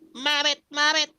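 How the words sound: It is said in a Baby Frog voice.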